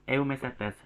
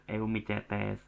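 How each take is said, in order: First: Eumicetes with the C said as S; correct S reading. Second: Eumicetes said slowly with C as CH; slow wrong demo of eumicetes, CH instead of S; mistaken CH reading. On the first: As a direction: pronounce the C in eumicetes like an S. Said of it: "C-nya itu dibaca seperti S". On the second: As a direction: say eumicetes as "eu-mi-CHE-tes", drawn out. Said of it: "Bukan eumicetes". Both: Shown as a demonstration.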